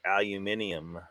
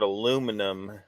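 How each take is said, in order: First: It is said with five syllables, British style. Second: It is said with four syllables, American style. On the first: "y'all say aluminium" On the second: "we say the word aluminum"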